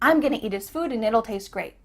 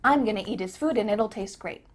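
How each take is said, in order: No difference in how they are said.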